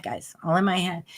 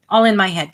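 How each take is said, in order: First: Quiet repeat. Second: Said in the usual way. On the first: Real, not acted. Host quietly repeating it to listeners. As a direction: drop much softer on the repeat.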